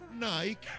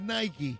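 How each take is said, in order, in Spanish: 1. Nike se dice con la pronunciación local, mixta. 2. Nike se dice con pronunciación inglesa. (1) "aquí, como somos tan estupendos, decimos Nike" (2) "si lo dices en inglés, tiene que decir Nike"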